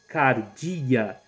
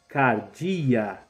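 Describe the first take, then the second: Both takes have the same delivery.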